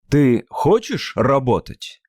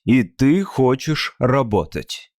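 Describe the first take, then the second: First: It has question intonation. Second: It has statement intonation.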